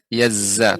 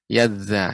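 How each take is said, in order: First: The middle consonant is a 'z' sound. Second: The middle consonant is a voiced 'th' sound. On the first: The speaker calls it wrong. "tidak berubah jadi" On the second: The speaker calls it right.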